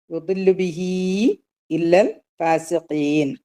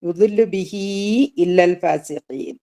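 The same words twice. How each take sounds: First: Slower recitation. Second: Recited at a normal pace. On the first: Teacher repeats the verse for students, much slower chant. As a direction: stretch ഫാസിഖീൻ out, slow and measured. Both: Shown as a demonstration. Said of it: "അല്ലേ?".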